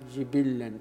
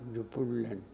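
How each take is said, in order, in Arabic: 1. الحركتان الأوليان كلتاهما كسرة، مع تشديد اللام. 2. الحركتان الأوليان كلتاهما ضمة، مع تشديد اللام. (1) "بكسر الجيم والباء وتشديد اللام" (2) "بضم الجيم والباء وتشديد اللام"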